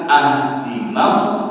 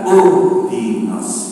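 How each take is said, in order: First: The word begins with the vowel a. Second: The word begins with the vowel u. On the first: "bukan ahdinas" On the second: "bukan uhdinas"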